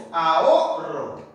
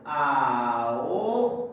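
First: "Ahorro" slow, with the O held and hit hardest; stress on the O. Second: "Ahorro" split into slow, separate syllables. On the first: Teacher showing where the voice is strongest, stressed O. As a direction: lean on the O of "Ahorro". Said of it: "¿dónde está la mayor fuerza de voz?". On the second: Teacher showing students how to syllabify, syllable by syllable. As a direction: draw out "Ahorro" piece by piece, pausing between syllables. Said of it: "silabear de esta manera". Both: Shown as a demonstration.

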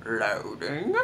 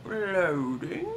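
First: Low start on LOADING, swooping up at the end; LOADING said low with a rising finish; singsong loading. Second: Higher LOADING with an upturned end; LOADING pitched up, rising at the finish; singsong loading. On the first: Gamer fills a loading screen, playful low rising singsong. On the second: Gamer repeats the loading screen word, playful high rising singsong. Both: Pretend.

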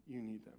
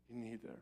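First: Soft, low, nearly whispered echo; hushed repeat. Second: Almost whispered, very soft; hushed plea. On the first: Pastor repeating his plea to the church, barely above a whisper. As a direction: let it fall to a hush. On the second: Pastor pleading softly to the congregation, hushed. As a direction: lean in and hush it to the crowd. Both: Real, not acted.

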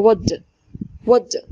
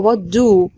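First: "what" run into a reduced d; weak do. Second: "what do" with a full, long do; wrong full do. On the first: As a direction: swallow the do into "what d". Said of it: "do هنا مش هتبقى do". (do مختزلة في "what د") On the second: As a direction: say "do" strong and stretched, the wrong way. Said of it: "لا مش هتبقى what do". (نطق "what do" بـ do كاملة وطويلة) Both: Shown as a demonstration.

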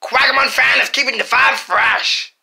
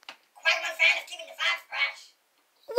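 First: Said in the usual way. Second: Much quieter, slightly raised tinny replay of the sentence; faint electronic playback; recorded playback. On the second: Shown as a demonstration. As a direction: play the line back like a toy recorder. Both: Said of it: "say something and I will play it back".

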